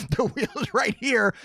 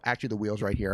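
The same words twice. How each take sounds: First: Higher, slow, showman unveiling; mock grand reveal. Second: Said in the usual way. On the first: Host shows viewers the prize wheel, hammed-up announcer. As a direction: drag it out like a game show host.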